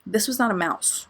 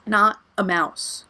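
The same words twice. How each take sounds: First: Said in the usual way. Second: "Not a mouse" slow, each word hit, NOT leaned on; stressed keywords. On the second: Shown as a demonstration. Insisting to viewers it was a rat, slow stressed words. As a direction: spell out "Not a mouse" slowly with weight on NOT. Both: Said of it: "Keywords, not a mouse".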